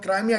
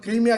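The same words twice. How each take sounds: First: क्राइमिया said as kra-i-mi-ya, with a long ai glide in the first syllable; Crimea pronounced Kraimiya. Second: क्रीमिया said as kree-mi-ya, with a long ee in the first syllable; Crimea pronounced Kreemiya. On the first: Explaining Crimea's other names to viewers, says क्राइमिया as kra-i-mi-ya. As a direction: say क्राइमिया the way some people say it, kra-i-mi-ya. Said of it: "कुछ लोग क्राइमिया कहते हैं". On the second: Telling viewers the name we use, says क्रीमिया as kree-mi-ya. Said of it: "कुछ लोग क्रीमिया कहते हैं". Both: Shown as a demonstration.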